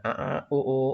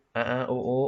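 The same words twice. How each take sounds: First: Said in the usual way. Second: Higher, hooting ape call; gorilla sound. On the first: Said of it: "menirukan suaranya gorila". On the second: Shown as a demonstration. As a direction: hoot like a gorilla. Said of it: "itu suara gorila".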